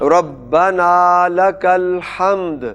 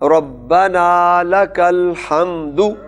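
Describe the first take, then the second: First: The last word ends without a final vowel. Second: The last word ends with a final u vowel. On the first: The reciter stops at this word. "जब वक्फ करेंगे तो पेश साइलेंट हो जाएगी।" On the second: The phrase continues without a stop. "दाल पर क्या है?"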